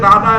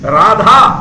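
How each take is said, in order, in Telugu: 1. మధ్య హల్లు ప్రాణం లేకుండా పలుకుతారు. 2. మధ్య హల్లు ప్రాణంతో పలుకుతారు. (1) "తెలుగులో తీసుకున్నారనుకోండి రాధా అంటే తిరిగి మన దగ్గరికి రాధా అనే అర్థం వస్తుంది" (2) "రాధా అంటే ఆరాధన అయింది"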